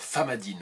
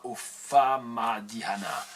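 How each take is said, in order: First: The word is shortened, ending in -dine. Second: Every written syllable is pronounced, ending in -hana. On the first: The speaker calls it right. "mais ça se dit Famadine" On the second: The speaker calls it wrong. "j'ai lu ce qui était écrit"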